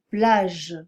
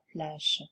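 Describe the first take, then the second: First: The final consonant is voiced. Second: The final consonant is voiceless. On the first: The speaker calls it right. "Il faut prononcer" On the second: The speaker calls it wrong. "et pas"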